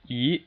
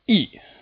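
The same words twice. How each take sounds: First: The pitch rises steadily from middle to high. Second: The pitch falls sharply from high to low. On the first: "it's just a steady rise" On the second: "the sharp downward striking tone"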